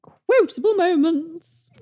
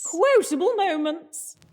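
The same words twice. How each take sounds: First: Slow, high title with a fake echo; echo effect. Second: Slow, high segment jingle voice; announcer voice. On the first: Host adding a mock echo to the segment title. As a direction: voice the echo of the jingle. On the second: Acted. Host announcing the segment in a high, slow jingle voice. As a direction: sing out the segment title grandly. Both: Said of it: "I created a sodding effects for that".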